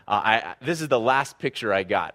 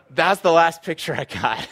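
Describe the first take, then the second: First: Said in the usual way. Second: Higher and louder, nearly laughing; punchline emphasis. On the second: Real, not acted. Pastor to congregation, punchline said higher, louder, nearly laughing. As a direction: land it as the big reveal with a grin.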